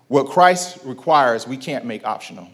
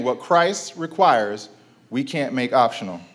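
First: Slow, weighty stress on "What Christ requires"; slow emphatic. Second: Slow repeat with weight on "Christ" in "What Christ requires"; slow emphatic repeat. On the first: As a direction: lean hard on "Christ" in "What Christ requires", drawn out. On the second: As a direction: say "What Christ requires" slowly again, stressing "Christ". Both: Shown as a demonstration. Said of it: "I'm gonna say that again".

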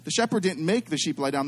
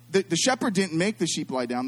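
First: Didn't make leaned on a little; stress on make. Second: The shepherd said plainly, no stress on make; plain read of The shepherd didn't make the sheep lie down. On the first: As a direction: lean on make in The shepherd didn't make. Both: Shown as a demonstration. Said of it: "listen to the difference".

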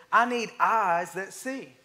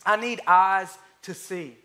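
First: Even slower restatement, word by word; slow repeat. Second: Each word spaced out for note-taking; slow dictation. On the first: Preacher repeating the point, drawn out slowly. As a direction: lay it down again, slow and heavy. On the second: Preacher to congregation, slow and deliberate. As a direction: give it slowly so they can write it down. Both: Shown as a demonstration. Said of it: "You can write it down".

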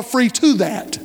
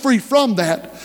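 First: "to" stressed as the answering word. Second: "from" stressed in a slow, deliberate phrase. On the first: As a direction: punch the word "to" against what came before. Contrast of to with from. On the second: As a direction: lean on the word "from" to set up a contrast. Contrast of from with to. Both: Real, not acted.

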